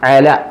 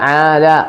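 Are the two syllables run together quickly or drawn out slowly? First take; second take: quickly; slowly. First: The two syllables are run together quickly. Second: The two syllables are drawn out slowly. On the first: The speaker calls it right. "Speed വായിക്കുക" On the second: The speaker calls it wrong. "ആല എന്നല്ല"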